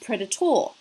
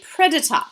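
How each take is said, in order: First: The final syllable has a full 'or' vowel. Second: The final syllable has a weak schwa vowel. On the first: This is not the usual Australian way. The speaker calls it wrong. "not predator" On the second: This is the usual Australian way. The speaker calls it right. "we say predator"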